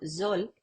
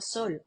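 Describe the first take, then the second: First: The first sound is a voiced buzzing z. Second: The first sound is a voiceless hissing s.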